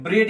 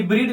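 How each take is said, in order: First: ब्रेड with an "eh" vowel; correct reading, short e. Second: ब्रीड with a long "ee" vowel; wrong reading, long ee. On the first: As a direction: say ब्रेड to rhyme with "red". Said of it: "ब्रेड ही पढ़ेंगे इसको". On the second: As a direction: misread it as ब्रीड, rhyming with "need". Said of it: "ये ब्रीड नहीं पढ़ सकते हैं". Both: Shown as a demonstration.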